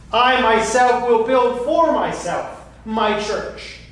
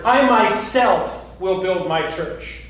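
First: Higher, slow, stress on "for myself"; building emphasis. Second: Slow, stressing "I" and "myself"; emphatic pronouns. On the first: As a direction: press harder on "for myself", slowly. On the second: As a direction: lean on "I myself" deliberately and slowly. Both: Shown as a demonstration. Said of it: "The use of personal pronouns there is emphatic".

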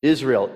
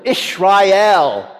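First: Said in the usual way. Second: Ishrael with a "sh" sound, higher and louder; Hebrew pronunciation. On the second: Shown as a demonstration. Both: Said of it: "that new name in Hebrew".

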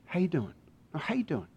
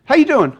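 First: Very soft, sincere question; near-murmured caring check-in; tender, probing friend. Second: Bright-pitched, breezy how-are-you; higher-pitched surface greeting; casual friendly check-in. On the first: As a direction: ask it hushed, to reach the real person. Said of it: "until they get the real you". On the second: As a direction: ask it high, as a casual first check. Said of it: "Ever had someone do this for you?". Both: Acted.

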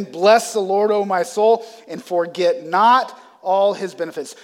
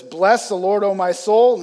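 First: Louder repeat with stress on not; emphatic repeat. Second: Said in the usual way. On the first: Retold or imitated. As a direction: press down on "not". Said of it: "he's gonna say it again". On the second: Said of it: "And so he says".

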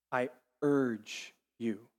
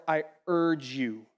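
First: Slowed, softer "I urge you" with lingering urge; slow, tender plea. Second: Said in the usual way. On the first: Shown as a demonstration. Preacher repeating scripture to the congregation, tender plea. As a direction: lean in and plead gently on "urge".

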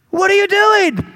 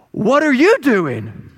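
First: High, loud, exasperated yell; angry shout. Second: Slow, drawn-out comic retort, pitched high; indignant donkey. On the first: Balaam to the donkey that lay down, angry shout. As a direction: yell at a stubborn animal in outrage. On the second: Talking donkey looking up at Balaam, slow indignant retort. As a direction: throw the question back with slow, weighty indignation. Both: Acted.

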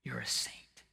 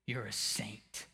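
First: Soft unvoiced whisper. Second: Quiet, slowed repeat; soft murmur. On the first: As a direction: drop to a whisper. Whispered after loud preaching. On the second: Acted. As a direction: let it fall softly, slowly. Repeated softly.

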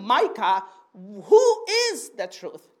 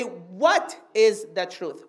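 First: Slow question with "who" stretched and raised; drawn-out, pointed "who", falling at the end; stress on WHO. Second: Slow, lower question with weight on "what"; deliberate, spaced-out "what", falling at the end; stress on WHAT. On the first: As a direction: lean on "who" as the wrong question word. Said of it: "I don't ask him". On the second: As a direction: lean on "what", then fall away evenly. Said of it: "I say". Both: Shown as a demonstration.

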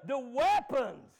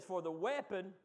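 First: "weapons" drawn out loud and slow as a plural; stress on WEAPONS. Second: Said in the usual way. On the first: Shown as a demonstration. Preacher pointing out the S to church, "weapons" stretched loud. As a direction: punch "weapons" loudly, stretching it to mark the plural. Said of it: "It's got an S on it, don't it?". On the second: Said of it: "It's got an S on it".

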